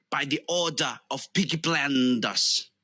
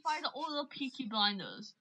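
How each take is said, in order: First: Amateur Brummie gangster line; Birmingham Peaky Blinders impression. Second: Quiet, quick Birmingham accent; understated, offhand Brummie line; own Birmingham version. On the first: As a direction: declare it in a put-on Birmingham accent. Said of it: "since you're from Birmingham, I, I wanna say". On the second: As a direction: say it softly as a Birmingham local. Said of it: "Like, if I were to say it". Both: Shown as a demonstration.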